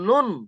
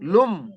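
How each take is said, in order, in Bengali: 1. শব্দটি n আওয়াজে শেষ হয়। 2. শব্দটি m আওয়াজে শেষ হয়। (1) "এখানে লুন ছিল" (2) "এই নুন সাকিনের আওয়াজটা এই মিমের সঙ্গে মিলিয়ে পড়বো"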